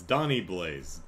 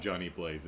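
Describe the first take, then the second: First: Donnie said slowly and firmly, leaning on it; stress on Donnie. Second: Said in the usual way. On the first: Shown as a demonstration. Correcting the character's name, stress on Donnie. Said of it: "it's not Johnny Blaze, it's Donnie Blaze". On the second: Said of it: "it's not Johnny Blaze".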